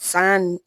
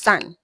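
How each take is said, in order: First: The final N sound is drawn out. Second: The final N sound is cut short. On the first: The speaker calls it wrong. "It is not sun" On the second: The speaker calls it right. "it is just sun"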